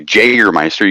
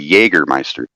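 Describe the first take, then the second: First: It begins with an English J sound. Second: It begins with a Y sound. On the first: The speaker calls it wrong. "You don't say Jägermeister" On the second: The speaker calls it right. "you say Jägermeister"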